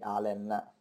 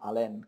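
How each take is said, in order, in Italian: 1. L'accento cade sulla prima sillaba. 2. L'accento cade sull'ultima sillaba. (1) "il nome senza accento sulla E" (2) "non Allen come avevo detto prima"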